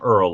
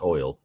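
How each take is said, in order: First: The word oil is said like earl. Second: The word oil is said with standard vowels. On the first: "you swap E R and O I sounds" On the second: "not oil"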